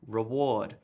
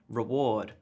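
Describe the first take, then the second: First: The stress falls on the expected syllable. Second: The same.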